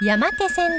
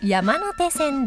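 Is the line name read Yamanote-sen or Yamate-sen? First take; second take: Yamate-sen; Yamanote-sen. First: It is read with the shorter reading, Yamate-sen. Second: It is read with the longer reading, Yamanote-sen. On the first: The speaker calls it wrong. "間違えやすいのですが" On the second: The speaker calls it right. "山手線です"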